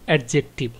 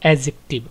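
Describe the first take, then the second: First: The d sound is clearly pronounced. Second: The d sound is left out. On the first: The speaker calls it wrong. "অনেকে এটাকে উচ্চারণ করেন" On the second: The speaker calls it right. "ডিটা অনুচ্চারিত, এটা silent থাকবে"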